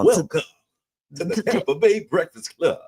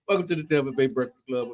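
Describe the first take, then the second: First: It is said in a Super Dave impression. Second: It is said in his natural voice.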